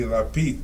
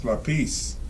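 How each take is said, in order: First: Lápiz the way they say it in Spain; Castilian lápiz. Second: Lápiz ending in a clear s, "LAH-pees"; lápiz, s not th, as in the Americas; Latin American lápiz. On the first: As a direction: say lápiz with a hissing Spanish-from-Spain z. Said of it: "In Spain". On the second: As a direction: say lápiz with a plain s at the end. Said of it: "You would say in, uh, here, in the Americas". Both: Shown as a demonstration.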